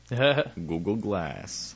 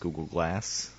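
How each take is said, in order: First: It is said very slowly and carefully. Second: It is said at a normal speaking pace.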